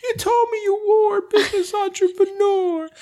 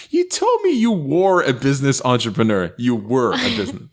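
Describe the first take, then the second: First: Very high, thin woman's voice; high squeaky voice. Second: Said in the usual way. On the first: Acted. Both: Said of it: "you cannot write properly".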